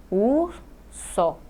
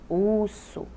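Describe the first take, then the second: First: "urso" as ur, pause, so; split into syllables. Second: Said in the usual way. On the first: Shown as a demonstration. Teacher counting two syllables, "urso" syllable by syllable. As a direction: break "urso" into two, pitched up slightly. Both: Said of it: "duas sílabas".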